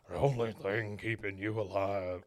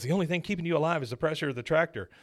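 First: Low, weighty film-character voice; Charlton Heston. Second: Quick, lightly higher film-character voice; fast, mildly urgent movie line; Ethan Hawke. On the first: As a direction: play the dying father, pitched down. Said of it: "I did the wrong voice". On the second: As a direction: lightly play the son, pitched up and rushed. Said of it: "This is Ethan Hawke". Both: Acted.

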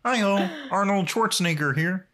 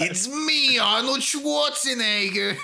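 First: Higher, put-on frog puppet voice; Kermit. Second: Much higher, slow, drawn-out silly voice; hammed-up bad action-star impression; mock Arnold Schwarzenegger. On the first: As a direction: chirp a cheery puppet greeting, impersonated. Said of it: "that's my really bad Kermit impression". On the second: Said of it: "like, a really bad impression".

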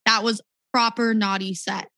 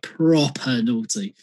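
First: American "proper naughty", r kept, tapped t; American accent. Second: "proper naughty" with "proper" as "prop-ah"; British "proper naughty", r dropped from proper; proper ending in A. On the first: Rehearsing a line for a visiting DJ, American accent. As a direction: say "proper naughty" plainly American, "nah-dee". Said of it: "could you do it in an American". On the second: Coaching an American on British slang, "proper" ending in "ah". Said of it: "with an A at the end". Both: Shown as a demonstration.

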